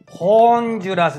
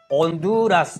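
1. hの音で始まります。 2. 母音で始まります。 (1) "ホンジュラスではありません" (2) "H は発音しません。オ、ホンドゥーラスと発音します"

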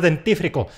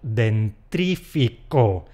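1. No hay sonido r después de la t. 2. Un sonido r extra sigue a la t. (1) "El diente no tiene R" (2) "han dicho dentrífico. Pues no"

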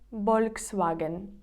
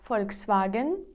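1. Вимовляють по-іспанськи, з b. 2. Вимовляють по-українськи. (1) "Іспанці називають це Volkswagen. Через «б»" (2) "Наступна марка Volkswagen"

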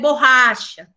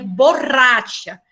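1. La r se pronuncia a la manera portuguesa. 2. La r se pronuncia a la manera española. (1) "Para ustedes, es borracha" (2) "En español, para nosotros, es borracha"

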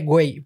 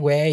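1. Se dice con un tono insultante y ofensivo. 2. Se dice con un tono amistoso e informal. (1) "como que insulto" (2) "ya es como que amistoso"

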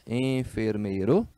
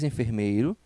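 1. Ela é pronunciada com sons espanhóis. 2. Ela é pronunciada com sons portugueses. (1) "muda a pronúncia" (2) "mesma palavra do português"

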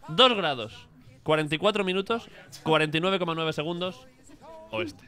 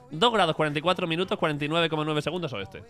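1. Los números se leen a un ritmo normal. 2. Los números se leen muy rápido.

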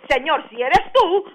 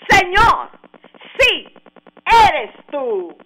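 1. Se dice como una pregunta dudosa y condicional. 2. Se dice como una afirmación firme y segura. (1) "es como leerlo de una manera que él dudó que era Jesús" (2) "se traduce como una afirmación, no como una duda"

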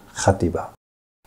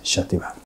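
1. 名前は息の混じった「h」の音で始まります。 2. 名前はシーッという「sh」の音で始まります。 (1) "標準語ではね、" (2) "その言葉ではX から始まって、発音はシャティバーです。"

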